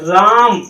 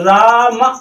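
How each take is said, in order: First: The word ends on a closed consonant sound. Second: The word ends on an open vowel sound. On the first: The speaker calls it right. "रा म दबा देते हैं" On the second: The speaker calls it wrong. "तो यहाँ आवाज खुल जाती"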